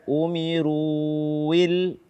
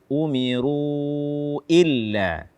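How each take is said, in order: First: The words run together without a glottal stop. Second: A clear glottal stop begins illa. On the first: The speaker calls it wrong. "Jangan dibaca umiruil" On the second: The speaker calls it right. "tidak, umiru illa"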